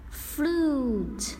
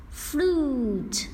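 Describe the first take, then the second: No difference in how they are said.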